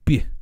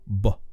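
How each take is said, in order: First: The tongue presses the hard palate during B. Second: The tongue presses the soft palate during B. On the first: "That effect is called palatalization" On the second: "an effect called velarization"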